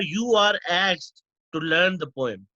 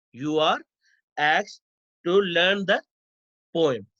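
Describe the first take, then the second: First: Said in the usual way. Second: "You are", "asked", "to learn the", "poem", each followed by a pause; dictation in chunks. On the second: Shown as a demonstration. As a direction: break after "are", "asked" and "the" for note-takers. Repeats example in chunks for students.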